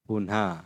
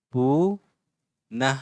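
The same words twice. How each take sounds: First: Said in the usual way. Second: "पुनः" very slowly, first vowel stretched, then a pause; drawn-out syllables. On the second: Shown as a demonstration. Teacher slowing "पुनः" for pupils, syllable by syllable.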